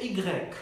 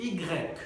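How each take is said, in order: No difference in how they are said.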